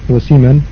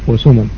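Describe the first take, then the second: The two takes are said the same way.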